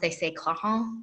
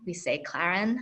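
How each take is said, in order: First: It is said with a French pronunciation. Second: It is said with an American pronunciation.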